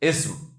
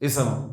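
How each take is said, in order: First: The s runs straight into the m. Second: A short a vowel separates the s and m. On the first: The speaker calls it right. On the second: The speaker calls it wrong.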